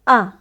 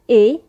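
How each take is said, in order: First: The letter is named the French way. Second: The letter is named the English way. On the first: "in French we pronounce it A" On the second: "in English"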